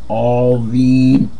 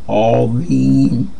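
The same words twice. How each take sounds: No difference in how they are said.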